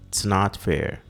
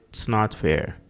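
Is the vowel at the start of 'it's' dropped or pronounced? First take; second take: dropped; dropped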